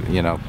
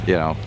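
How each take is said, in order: Both takes have the same delivery.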